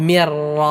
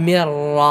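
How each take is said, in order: No difference in how they are said.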